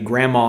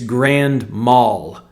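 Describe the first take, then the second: First: The term ends in 'ma' with no L sound. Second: The term ends in 'mal' with an L sound. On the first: It sounds like a seizure an elderly woman has. The speaker calls it wrong. "that is absolutely how people pronounce it" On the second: It means a very bad seizure. The speaker calls it right. "No, no. It's grand mal"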